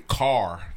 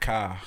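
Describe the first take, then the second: First: The final R is clearly pronounced. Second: The final R is soft, almost like W. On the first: This is how people up north say it. "Up north, they say car. They pronounce the R" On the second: This is how people here say it. "here, we say, it's like a R is a W almost"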